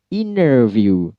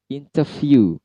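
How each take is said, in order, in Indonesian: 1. Aksen American: T hilang dan R jelas. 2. Aksen British: T jelas dan R lemah. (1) "Dalam American, T-nya hilang tapi R-nya jelas" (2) "dalam British yaitu interview"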